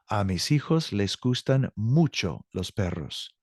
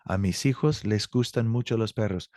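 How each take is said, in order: First: Careful, slow read of "A mis hijos les gustan mucho los perros"; slow model sentence. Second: Said in the usual way. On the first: Shown as a demonstration. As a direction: spell out every word for learners. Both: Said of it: "teacher repeats model sentence".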